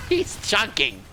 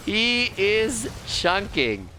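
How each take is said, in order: First: Said in the usual way. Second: IS stressed, each word slow and separate; emphatic, drawn out. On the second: Real, not acted. Commentator savours the dwarf's damage, slow emphatic "He IS chunking". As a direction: stretch out "He is chunking", leaning on IS. Repeats remark slowly for emphasis.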